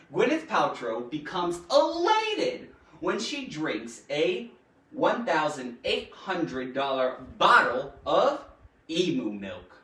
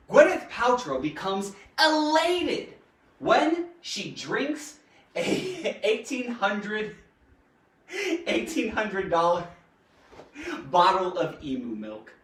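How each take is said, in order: First: Said in the usual way. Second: Reading aloud through real giggles; struggling not to laugh while reading; giggly. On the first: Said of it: "reread the sentence". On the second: Real, not acted. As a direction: break into giggles mid-sentence, then push on. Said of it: "Sorry, I'm all giggly".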